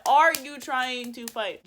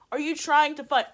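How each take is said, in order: First: Slow, loud, word-by-word demand; acted-out deliberate confrontation; emphatic angry challenge. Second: Quick, loud, higher demand; acted-out confrontational question; retold angry challenge. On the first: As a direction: spell out the challenge slowly and loudly. Repeated challenge, more deliberate. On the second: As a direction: fire off the challenge indignantly. First take of retold challenge.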